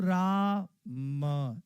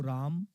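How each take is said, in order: First: The two syllables are separated by a pause. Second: The two syllables are joined without a pause.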